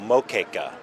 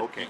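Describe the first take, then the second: First: The first vowel sounds like 'oh'. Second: The first vowel sounds like 'oo'. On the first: "I've seen it spelled with an O" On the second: "but Moqueca"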